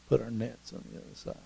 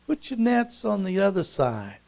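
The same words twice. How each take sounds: First: Quick, soft, disbelieving echo; grumbling repeat. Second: High call across the water, gliding down. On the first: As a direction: repeat the order under your breath, sceptically. Fishermen grumble back the instruction. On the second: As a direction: shout instructions over to the boat. Stranger calls instructions from bank. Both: Acted.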